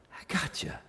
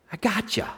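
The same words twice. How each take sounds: First: Soft unvoiced whisper of reassurance; whispered I gotcha. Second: Said in the usual way. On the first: Shown as a demonstration. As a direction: breathe it like a secret comfort. Repeated line whispered after plain take.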